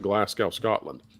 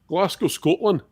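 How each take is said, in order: First: It is said in his ordinary American accent. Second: It is said in a put-on Scottish accent.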